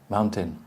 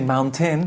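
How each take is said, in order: First: The second syllable is weak and unstressed. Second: The second syllable is given stress. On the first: The speaker calls it right. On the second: The speaker calls it wrong.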